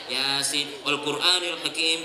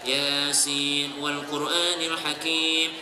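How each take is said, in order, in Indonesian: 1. Dibaca dengan ceroboh dan tidak fokus. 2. Dibaca dengan teliti dan penuh perhatian. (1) "Itu kalau yang tua-tua atur kue sambil atur kue" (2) "Dia dengarkan dengan baik"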